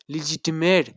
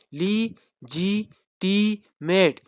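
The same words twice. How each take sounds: First: Said in the usual way. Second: "Legitimate" split very slowly into le, gi, ti, mate; syllable by syllable. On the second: Shown as a demonstration. Teacher counting syllables for students, "Legitimate" said syllable by syllable. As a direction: say "Legitimate" in four separate beats with long pauses. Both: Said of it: "number of syllable कितने बन रहे हैं".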